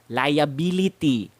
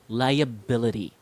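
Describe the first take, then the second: First: The unstressed vowels are full and clear. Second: The unstressed vowels are reduced to schwa. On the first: The speaker calls it wrong. "how Filipinos would usually pronounce it" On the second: The speaker calls it right. "how I pronounce it"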